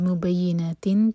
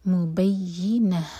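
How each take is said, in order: First: The word ends with a -tun sound. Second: The word ends with a silent -h sound. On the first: "یہ مبینہ تن تھا" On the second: "یہاں رکیں گے تو تا مربوطہ ہا میں چینج ہوگا اور ہم اس کو ساکن کریں گے"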